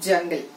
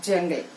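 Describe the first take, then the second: The two takes are said the same way.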